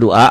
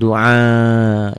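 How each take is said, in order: First: The last vowel is said short. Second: The last vowel is drawn out long. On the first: The speaker calls it wrong. "Bukan doa" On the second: The speaker calls it right. "Jadi panjang"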